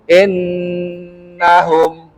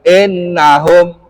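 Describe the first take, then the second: First: The nasal n sound is held long. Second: The nasal n sound is short and quick. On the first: The speaker calls it right. "Harus ditas, ditahan dulu" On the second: The speaker calls it wrong. "Tidak boleh hanya sekedar innahum"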